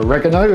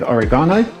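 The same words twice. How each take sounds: First: It is said in an American way. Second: It is said in a non-American way.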